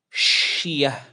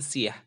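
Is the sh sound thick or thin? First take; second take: thick; thin. First: The sh sound is thick and heavy. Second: The sh sound is thin and light. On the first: The speaker calls it right. "dibaca tebal" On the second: The speaker calls it wrong. "jangan siyah"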